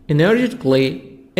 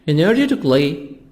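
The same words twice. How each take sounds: Both takes have the same delivery.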